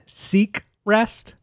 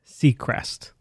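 First: It is said as two separate words, sea and crest. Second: It is said as one word, like the surname. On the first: It names the collection, a sea and a crest. The speaker calls it right. "I'm saying Seacrest" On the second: It names the television host. The speaker calls it wrong. "not Seacrest, like Ryan Seacrest"

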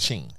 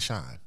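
First: The vowel sounds like 'ee', as in sheen. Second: The vowel sounds like 'eye', as in shine. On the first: The speaker calls it right. "but it's a Sheen" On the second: The speaker calls it wrong. "I said Shine"

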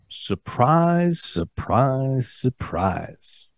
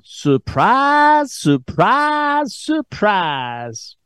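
First: It is said in his normal accent. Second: It is said in a put-on Southern accent.

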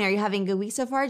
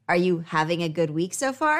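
First: It is spoken very fast. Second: It is spoken slowly. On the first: "sped up" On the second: "I'm going to slow things down"

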